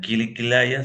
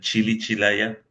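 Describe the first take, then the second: First: The words begin with a hard k sound. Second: The words begin with a ch sound. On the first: "esa parte no pronuncian Kili Kilaya" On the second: "sino pronuncian Chili Chilaya"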